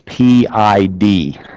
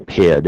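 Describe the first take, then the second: First: It is spelled out as three letters. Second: It is read as one word, "pid". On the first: The speaker calls it right. "it's P I D" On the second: The speaker calls it wrong. "don't say P I D. ... You don't read it"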